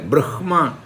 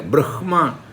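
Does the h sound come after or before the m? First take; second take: before; before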